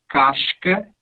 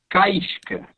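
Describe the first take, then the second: First: The vowel goes straight into the s. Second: An 'ee' glide is added before the s. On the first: "ao invés de casca" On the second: "entre esse A e esse S, eu vou colocar um som de I ... como no manezinho"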